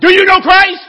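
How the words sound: It is said with an exclaiming, emphatic tune. The speaker is expressing strong feeling. "if I put an exclamation point"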